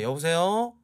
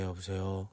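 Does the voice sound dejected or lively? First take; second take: lively; dejected. First: The voice is bright and energetic. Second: The voice is flat and deflated. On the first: The speaker calls it right. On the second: The speaker calls it wrong.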